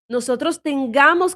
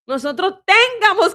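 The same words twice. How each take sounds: First: The stress falls on the usual syllable. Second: The stress falls on an unusual syllable. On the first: The speaker calls it right. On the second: The speaker calls it wrong.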